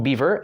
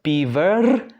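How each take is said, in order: First: Said in the usual way. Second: Beaver ending on a long trilled R; pulled final R. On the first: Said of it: "So we'll leave it alone". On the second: Shown as a demonstration. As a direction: roll out the R at the end of beaver. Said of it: "that's kind of difficult".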